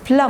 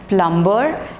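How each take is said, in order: First: The B sound is silent in the middle. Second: The B sound is pronounced in the middle. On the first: The speaker calls it right. "no b sound and no r sound also" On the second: The speaker calls it wrong. "it's not plumber"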